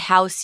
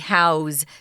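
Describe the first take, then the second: First: The word ends with an S sound. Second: The word ends with a Z sound. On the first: The speaker calls it wrong. "You can't say, I'm, I want to house you. That's wrong" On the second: The speaker calls it right. "if house is a verb, you pronounce it with a Z"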